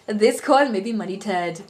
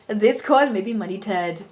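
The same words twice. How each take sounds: First: It is spoken in an Indian accent. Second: The same.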